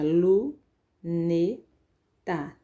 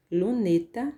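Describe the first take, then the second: First: Lu, ne, ta spoken as three separate syllables with pauses; split into syllables. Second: Said in the usual way. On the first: Shown as a demonstration. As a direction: break luneta into lu, ne, ta, one beat each. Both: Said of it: "veja, lu, ne, ta".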